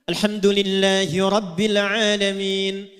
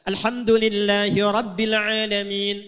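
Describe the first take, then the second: No difference in how they are said.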